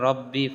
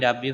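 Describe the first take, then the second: First: The first vowel sounds like a rounded o. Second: The first vowel sounds like an open a. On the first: The speaker calls it right. "রব্বি পড়তে হবে" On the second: The speaker calls it wrong. "রাব্বি পড়া যাবে না"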